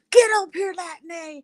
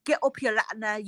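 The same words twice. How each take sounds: First: High, loud mock shout; imitating rowdy challengers. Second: Lightly mimicked challenge in a put-on accent; Ramesh. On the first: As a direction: call someone out in a hammed-up yell. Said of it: "you guys were like". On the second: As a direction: imitate someone calling out a rival, without shouting. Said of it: "And then Ramesh was like".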